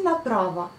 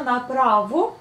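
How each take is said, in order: First: Направо with the last o reduced, naprav-uh; reduced ending. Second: Направо with a full o at the end, naprava. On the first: Teacher showing how направо is really said, weak ending. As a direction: let the end of направо fade to a schwa. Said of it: "mais on dit направо". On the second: Teacher showing the written form of направо, o ending. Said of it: "On prononce bien направо". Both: Shown as a demonstration.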